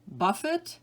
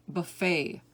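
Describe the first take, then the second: First: Buffet as BUFF-it, with sounded t; stress on first syllable. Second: Buffet as buh-FAY, second syllable stressed; silent t. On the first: Teacher reading word list to students, buffet as BUFF-it. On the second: Teacher giving other pronunciation, buffet as buh-FAY. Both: Shown as a demonstration. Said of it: "give you both pronunciations".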